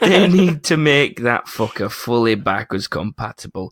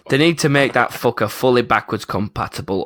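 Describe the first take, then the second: First: It is read in a mocking, sarcastic tone. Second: It is read in a plain, serious tone. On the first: The comment is being made fun of. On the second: The comment is presented as meant earnestly.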